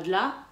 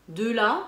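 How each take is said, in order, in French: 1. Le e de 'de' ne se prononce pas. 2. Le e de 'de' se prononce pleinement. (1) "et pas de là" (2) "Pareil ici. De là"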